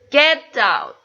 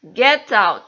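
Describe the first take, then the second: First: "get" punched loud, tune falls; commanding stress on get. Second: "get" hit hard and loud, falling end; louder command on "get"; stress on get, louder. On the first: Teacher demos a command, loud stress on "get". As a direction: bark "get" at the dog. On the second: Teacher repeats the command louder, stress on "get". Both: Shown as a demonstration. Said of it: "Jadi yang tekan get out".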